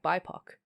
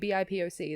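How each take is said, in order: First: It is pronounced as one single word. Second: Each letter is spoken out separately. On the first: "Like they say B I P O C like B I P O C" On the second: "Like they don't say B I P O C"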